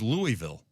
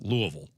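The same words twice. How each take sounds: First: It is said the Southern Illinois way. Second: It is said the way Louisville locals say it. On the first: "That's how we did it in Southern Illinois" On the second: "they said, no, it's pronounced Louisville"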